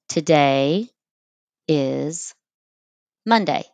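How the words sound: It is split into three separate words.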